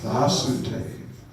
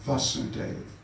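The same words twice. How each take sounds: First: The first vowel is long. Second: The first vowel is short. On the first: It names the son of the father. "is Vasudev with a long A" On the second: It names the father. "Vasudev with a short A"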